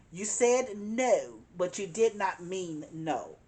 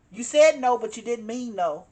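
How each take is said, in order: First: Spelled out slowly, every word weighted, did not pressed apart; measured, emphatic slow take; slow deliberate stress. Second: A sudden loud punch on the first words, then easing; forceful first take; loud emphatic. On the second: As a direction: blurt the no out hard. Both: Shown as a demonstration.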